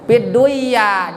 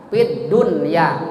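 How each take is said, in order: First: The n sound is merged into the y. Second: The n sound is pronounced clearly before y. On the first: The speaker calls it wrong. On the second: The speaker calls it right. "dibacanya idhar"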